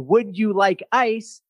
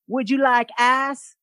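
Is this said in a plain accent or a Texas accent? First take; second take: plain; Texas. First: Plain accent, with a full gliding vowel in ice. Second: Texas accent, with ice flattened to sound like ass. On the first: "She did not, in my mind, say" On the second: "this was my introduction to a Texas accent"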